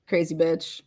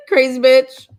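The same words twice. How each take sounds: First: Said in the usual way. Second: Louder, slow, laughing it out; laughing repeat. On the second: Real, not acted. Calling out the ex-friend, laughing slowly. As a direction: crack up saying it again.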